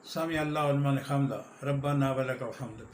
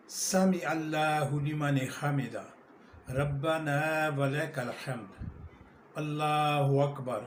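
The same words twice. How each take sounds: First: Quick, careless Arabic; rushed prayer phrase; hurried recitation. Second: Slow, measured Arabic with each word drawn out; slow correct prayer phrases; careful recitation. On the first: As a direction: rush through it as people usually do. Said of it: "اس کے بعد". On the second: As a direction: recite deliberately and clearly. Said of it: "عربی صحیح مفہوم میں پڑھیں گے". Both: Shown as a demonstration.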